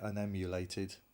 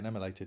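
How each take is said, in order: First: The word is said slowly and fully. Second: The word is said quickly and run together. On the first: "I could say unemulated" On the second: "I just do it fast"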